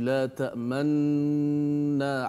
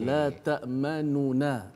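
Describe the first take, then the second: First: The two n sounds merge into one doubled n. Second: The two n sounds are separated by a vowel. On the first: "saya ada buat isyarat memuncungkan mulut" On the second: "asal kalimah ini adalah ada dua nun"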